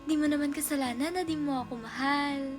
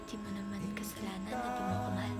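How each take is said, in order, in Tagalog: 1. Mainit at supportive ang dating ng linya. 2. Mababa at malungkot ang dating ng linya. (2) "Next is sad"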